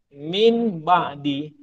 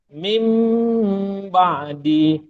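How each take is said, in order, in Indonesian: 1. Kata pertama diakhiri dengan bunyi n. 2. Kata pertama diakhiri dengan bunyi m. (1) "baca satu-satu min min ba'di, kan? Salah" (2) "Yang sebetulnya mim ba'di"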